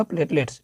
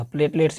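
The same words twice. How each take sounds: First: प्लेटलेट्स said in full, softer, not just प्लेट; full word. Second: प्लेटलेट्स said in full, not just प्लेट; full word. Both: Shown as a demonstration. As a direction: say प्लेटलेट्स completely, every syllable. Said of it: "यहाँ प्लेट नहीं पढ़िएगा".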